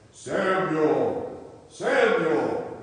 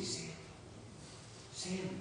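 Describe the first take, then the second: First: Loud, drawn-out call of a name; booming voice calling. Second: Hushed calling of a name; soft mysterious call. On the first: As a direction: call out loudly like the voice from above. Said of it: "I don't know if it sounded like that". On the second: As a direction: call the name very softly, as a voice in the night. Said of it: "he heard this voice say". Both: Acted.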